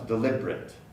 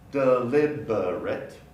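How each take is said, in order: First: It is said with three syllables. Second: It is said with four syllables.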